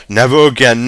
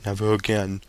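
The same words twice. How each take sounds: First: Firm and louder this time; louder protest. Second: Whimpered. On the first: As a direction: swear it out loud. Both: A narrator's reading. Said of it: "whimpered Father".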